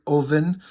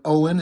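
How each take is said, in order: First: "Oven" with a V where Owen has a W; "Oven" pronounced OH-ven. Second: Said in the usual way. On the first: Shown as a demonstration. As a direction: say "Oven" as a German-accented Owen. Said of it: "it's O V E N". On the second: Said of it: "Instead of Owen".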